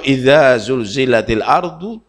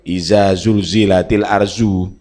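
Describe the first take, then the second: First: It is said with the original Arabic consonant sounds. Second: It is said with plain Indonesian-style consonant sounds. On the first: The speaker calls it right. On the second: The speaker calls it wrong.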